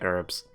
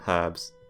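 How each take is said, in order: First: The word is said in an American way. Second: The word is said in a non-American way. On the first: "do the American pronunciation and say herbs" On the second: "He calls them herbs"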